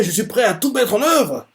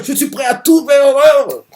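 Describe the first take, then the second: First: Lightly voiced vow. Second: A much higher, louder vow, shouted out; fervent shout. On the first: Retelling Domina's vow to his father, lightly voiced. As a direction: say the vow with mild fervour. Same vow retold calmer. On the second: Retold or imitated. Domina swearing to win his father's love, shouting. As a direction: yell the vow like a fanatic son.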